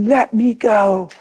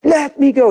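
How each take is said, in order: First: Put-on slow, higher boy shouting let me go; mock angry child, drawn out; boy's angry cry. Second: Put-on much higher, louder child's yell; higher and louder retold yell; louder boy's scream. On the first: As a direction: stretch it out like a furious child. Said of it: "he said". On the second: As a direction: shriek it like a frantic child. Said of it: "He's never treated me like that".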